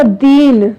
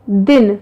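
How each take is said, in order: First: "दीन" with a drawn-out ee; long ee in दीन. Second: "दिन" with a short, quick i. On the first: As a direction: hold the long vowel in "दीन". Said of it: "बड़ी ई की मात्रा use की है". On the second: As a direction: keep the vowel of "दिन" brief. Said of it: "उसमें हमने छोटा". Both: Shown as a demonstration.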